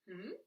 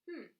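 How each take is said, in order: First: It sounds like a question being asked. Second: It sounds like attentive, conversational listening.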